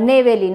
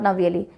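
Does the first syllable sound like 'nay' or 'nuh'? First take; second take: nay; nuh. First: The first syllable has an 'ay' vowel. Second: The first syllable has an 'uh' vowel. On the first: The speaker calls it right. "नेवेली not नवेली" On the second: The speaker calls it wrong. "नॉट नवेली"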